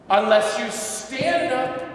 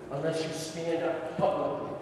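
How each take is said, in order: First: "unless you stand up" said slow, loud and high, each word hit; "stand" punched hard in a slow, loud line; slow emphatic stress. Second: Said in the usual way. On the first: Shown as a demonstration. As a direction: hammer "stand" home slowly.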